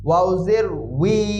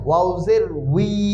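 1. শেষ অক্ষরটি 'w' ধ্বনি দিয়ে শুরু হয়। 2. শেষ অক্ষরটি 'w' ধ্বনি দিয়ে শুরু হয়।

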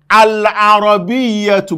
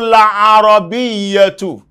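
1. تبدأ الكلمة بحرف العلة 'a' بوضوح. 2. تبدأ الكلمة بالصوت 'l' ولا يوجد حرف علة. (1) "bá a bá fẹ́ pe alàrọ̀bíyà nìkan" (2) "fẹ́ pe pọ̀ mọ́ gbólóhùn tó ti ṣíwájú rẹ̀"

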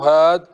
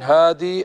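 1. تنتهي الكلمة بحرف صحيح ساكن. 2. تنتهي الكلمة بياء مد طويلة. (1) "وحذفها" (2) "جاز إثبات يائه"

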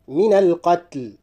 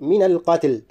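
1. لا تأتي بعد صوت التاء حركة. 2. تأتي بعد صوت التاء حركة. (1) "أحرص على عدم تحريك التاء" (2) "لا أقول من القتل"

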